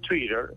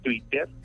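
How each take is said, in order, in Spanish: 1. La palabra se dice con sonidos ingleses. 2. La palabra se dice con sonidos españoles. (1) "sería estar utilizando una fonética inglesa" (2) "la expresión en español es que la T se pronuncia de esa manera"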